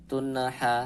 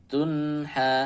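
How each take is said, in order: No difference in how they are said.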